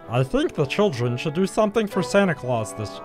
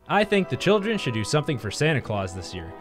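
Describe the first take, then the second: First: It is said in a put-on clown-like voice. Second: It is said in the speaker's normal voice.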